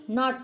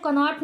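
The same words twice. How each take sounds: First: नॉट as "not", starting on N; silent K. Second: कनॉट with K sounded, "ka-not"; wrong pronunciation. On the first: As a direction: drop the K in नॉट. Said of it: "नॉट पढ़ेंगे". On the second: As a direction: add "ka" before the N in कनॉट. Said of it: "कनॉट नहीं". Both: Shown as a demonstration.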